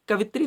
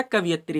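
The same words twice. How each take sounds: First: कवित्री said as ka-vit-ri, no ya sound; wrong spelling said. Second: कवियत्री said as ka-vi-yat-ri, with the ya sound; correct form said. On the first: Teacher reads the wrong form to exam students, कवित्री as kavitri. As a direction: read कवित्री as kavitri, three syllables. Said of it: "कवित्री नहीं होता". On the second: Teacher gives students the right form, कवियत्री as kaviyatri. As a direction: read कवियत्री as kaviyatri, four syllables. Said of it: "कवियत्री होता है". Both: Shown as a demonstration.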